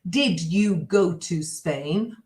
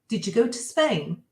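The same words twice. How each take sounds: First: It is said slowly with separate words. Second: It is said fast with words run together. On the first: "I'm going to say it slow" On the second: "if I say it fast"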